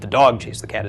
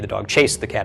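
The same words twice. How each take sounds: First: The word dog carries the main stress. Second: The word chased carries the main stress. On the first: It was the dog, not someone else, that did it. "is emphasizing dog" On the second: It chased rather than played with it. "is emphasizing that he chased the cat"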